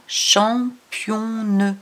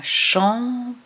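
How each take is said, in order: First: "championne" read with a clear nasal "on" before the N, drawn out slowly; wrong nasal reading. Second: "championne" read with an open "o" and a sounded N, no nasal; right reading. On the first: Teacher to child, showing the wrong "championne" slowly. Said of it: "On n'a pas championne". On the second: Teacher to child, showing the correct "championne". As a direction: say it right, "champi-o-nne" with a ringing N. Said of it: "On a championne". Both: Shown as a demonstration.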